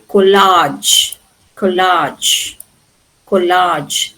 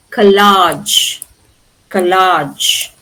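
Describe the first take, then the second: First: COLLAGE as KO-lahj, full O, repeated; British first-syllable stress. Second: COLLAGE as kuh-LAHJ, first vowel reduced; American last-syllable stress. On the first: Teacher shows what you can say in British English, first-syllable stress. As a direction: keep a clear "ko" at the start of COLLAGE. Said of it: "Here you can say". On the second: Teacher contrasts what they say in American English, last-syllable stress. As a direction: weaken the O and land on LAGE in COLLAGE. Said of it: "But here they say". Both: Shown as a demonstration.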